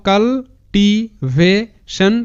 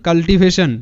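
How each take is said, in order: First: Very slow, broken into separate syllables. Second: Said in the usual way. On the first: Shown as a demonstration. Teacher breaks the word down for students, syllable by syllable. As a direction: sound out cultivation piece by piece, pausing between. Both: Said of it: "এরকম করে উচ্চারণটা করবে".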